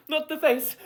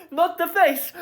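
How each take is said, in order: First: High, pleading mock terror; dramatic plea. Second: High, crying mock terror; dramatic crying plea. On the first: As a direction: beg for your face, hammed up. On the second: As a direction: sob the plea, hammed up. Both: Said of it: "I'm being a little bit dramatic".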